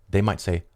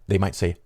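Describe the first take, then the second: Both takes have the same delivery.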